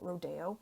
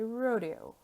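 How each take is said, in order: First: The word is said the Australian way. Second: The word is said the North American way. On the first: "in Australia, ... a lot call it or pronounce it rodeo" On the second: "We say rodeo in North America"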